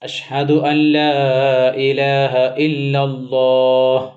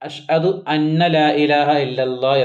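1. രണ്ടാമത്തെ വാക്ക് ഒറ്റ അക്ഷരമായി 'an' എന്നാണ് പറയുന്നത്. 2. രണ്ടാമത്തെ വാക്ക് രണ്ട് അക്ഷരമായി 'anna' എന്നാണ് പറയുന്നത്.

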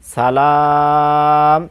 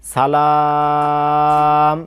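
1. শব্দটি হঠাৎ একটি খালি 'm' দিয়ে শেষ হয়। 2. শব্দটি হঠাৎ একটি খালি 'm' দিয়ে শেষ হয়।

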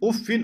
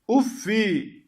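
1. Kelime -in ile biter, tenvinli. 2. Kelime kısa -i ünlüsüyle biter. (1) "Teminli okumuşlar" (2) "Yani teminsiz"

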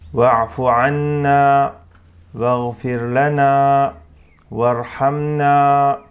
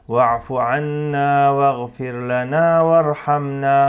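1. Kısa duraklamalar üç ifadeyi birbirinden ayırır. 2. Üç ifade duraklamadan birbirinin ardına geçer. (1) "şeklinde duraklama yaparsam güzeldir" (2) "duraklama yapmadan geçersem"

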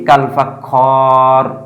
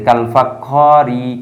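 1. শেষ শব্দটি কোনো শেষ স্বরধ্বনি ছাড়া শেষ হয়। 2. শেষ শব্দটি একটি হ্রস্ব 'i' স্বরধ্বনি দিয়ে শেষ হয়। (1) "এই থামার কারণে কিন্তু আমরা জেরের উচ্চারণটা করি না" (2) "একটানে উচ্চারণ করতে চাই তখন কিন্তু জেরের উচ্চারণটা চলে আসবে"

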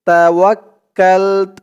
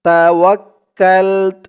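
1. শব্দটি শেষ হয়েছে 't' ব্যঞ্জনধ্বনি দিয়ে। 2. শব্দটি শেষ হয়েছে 't' ব্যঞ্জনধ্বনি দিয়ে।

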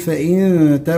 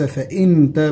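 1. النون مخفاة بغنة خفيفة. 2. النون تُنطق واضحة قبل التاء. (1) "نقول فإن تا" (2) "وليس فإن تا بالإظهار"

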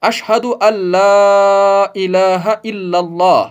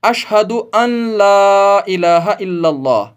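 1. n पूरी तरह मिलकर l को दोहरा कर देता है। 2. n को l से पहले अलग से बोला जाता है। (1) "जैसे हम अजान में पढ़ते हैं" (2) "जो कि बिल्कुल गलत है"

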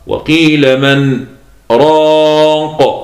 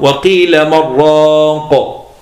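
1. فاصل خفيف بدون نفس يفصل بين الكلمتين. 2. الكلمتان تتصلان دون أي فاصل. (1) "سكت ما تنفستش وأقل من زمن الوقف" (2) "والباقون يقرؤون وقيل من راق وهكذا"

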